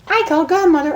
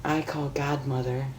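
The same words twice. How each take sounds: First: High chirpy singsong; high Pinkie singsong. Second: Soft sung tease. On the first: Pinkie singing into Rainbow's ear, high singsong. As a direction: sing it high and teasing. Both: A narrator's reading. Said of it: "sang into her friend's ear".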